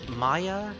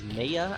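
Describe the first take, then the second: First: The first syllable sounds like 'my'. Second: The first syllable sounds like 'may'. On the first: The speaker calls it right. "simple names like Maya" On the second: The speaker calls it wrong. "mispronouncing it as Maya"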